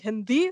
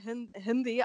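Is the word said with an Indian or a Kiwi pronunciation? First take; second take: Indian; Kiwi. First: The word is said with a native Indian pronunciation. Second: The word is said with a New Zealand English accent. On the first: The speaker calls it right. "but it should actually be Hindi" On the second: The speaker calls it wrong. "at the first time I said Hindi"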